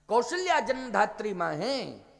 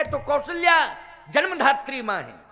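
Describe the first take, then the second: First: Said in the usual way. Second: Louder, higher, with a laugh in it; emphatic declaration. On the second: Real, not acted. Preacher hammers his point to the crowd, loud and high. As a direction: proclaim Kaushalya जन्मधात्री मां है raised and loud.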